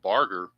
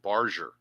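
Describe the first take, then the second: First: The G is said as a hard sound. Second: The G is said as a soft sound. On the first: The speaker calls it wrong. "I had been mispronouncing this guy's name wrong" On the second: The speaker calls it right. "the G is actually soft"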